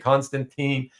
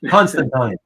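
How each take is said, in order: First: The name is said the North American way. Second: The name is said the British way. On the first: The speaker calls it wrong. "It's not supposed to be Constantine" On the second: The speaker calls it right. "the Brits overseas say Constantine... I force myself, even though it sounds wrong"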